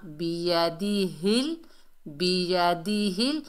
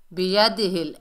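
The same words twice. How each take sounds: First: बियदिहिल slowly, each syllable distinct; careful correct reading. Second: बियदिहिल run together quickly, vowels cut short; hurried wrong reading. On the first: Teacher models it for learners, slow careful बियदिहिल. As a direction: stretch बियदिहिल syllable by syllable, rising at the end. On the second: Teacher shows learners what to avoid, hurried बियदिहिल. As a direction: say बियदिहिल fast without drawing out syllables. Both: Shown as a demonstration. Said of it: "ऐसे नहीं पढ़ना".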